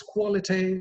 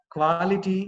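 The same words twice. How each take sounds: First: "quality" as KWO-li-tee, rounded O; rounded first vowel in "quality"; corrected pronunciation. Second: "Quality" as KWAA-li-tee, open A; wide first vowel in "Quality"; wrong pronunciation. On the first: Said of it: "It is quality". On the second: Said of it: "Quality is wrong". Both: Shown as a demonstration.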